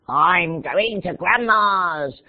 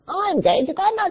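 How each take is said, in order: First: It is said in a put-on wolf voice. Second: It is said in a put-on bird voice. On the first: "we say it as if a wolf would say it" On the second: "And then a bird"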